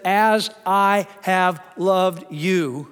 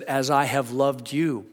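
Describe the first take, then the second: First: "As I have loved you." drawn out slow with "As" leaned on; slow, weighty reading of "As I have loved you."; stress on "As I". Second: Said in the usual way. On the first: Shown as a demonstration. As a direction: spell out each word slowly, weight on "As". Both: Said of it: "do you get that first part?".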